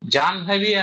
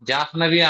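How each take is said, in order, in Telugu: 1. 'n' శబ్దం 'h' కి ముందు వస్తుంది. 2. 'n' శబ్దం 'h' కి తర్వాత వస్తుంది. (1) "జాహ్నవి అనాలి" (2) "జాహ్నవి అనకూడదు"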